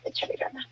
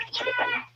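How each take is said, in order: First: Hushed, breathy urging under the breath; whispered encouragement. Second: Much higher, softer, pleading push; pleading encouragement. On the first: Mother whispers to her daughters at the hospital, keep going. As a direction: whisper it to calm them. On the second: Mother begs her daughters to keep their strength up, high and pleading. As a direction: lift it high like a plea. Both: Retold or imitated.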